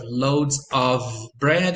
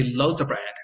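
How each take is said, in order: First: "loads of bread" said slowly with a full "of"; slow careful demo. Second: "loads of bread" with the v of "of" dropped; reduced demo. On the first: Teacher giving the careful form to students, slow. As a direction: say "of" clearly and slowly. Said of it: "So instead of". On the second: Teacher giving the relaxed connected form to students, quick. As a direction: drop the v in "of". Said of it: "you say". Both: Shown as a demonstration.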